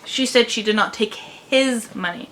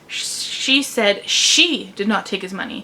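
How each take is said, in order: First: The stress is on the word his. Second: The stress is on the second she. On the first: She might have taken someone else's money. "but she might have taken someone else's money" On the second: Someone other than her took the money. "which means that it wasn't her who took the money, it was someone else"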